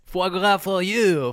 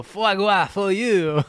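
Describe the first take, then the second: First: High, slow, hammed-up French; drawn-out mock French flourish; French accent. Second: Even higher, slow mock French; French accent. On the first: Mocking Macron, French flourish. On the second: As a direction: stretch it out like a grand Frenchman. Repeat, bigger French flourish.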